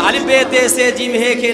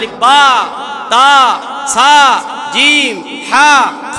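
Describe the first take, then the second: First: The letter names end in an 'e' vowel. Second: The letter names end in an 'a' vowel. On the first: This is the Urdu way of reading. "এটা উর্দু পড়া" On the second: This is the Arabic way of reading. "এটা হচ্ছে আরবি পড়া"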